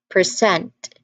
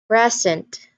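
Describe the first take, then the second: First: The stress is on the second syllable. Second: The stress is on the first syllable. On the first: It is a verb meaning to show or give. "the stress shifts to the second syllable" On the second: It is a noun meaning a gift. "The first stress is on the first the stress is on first syllable"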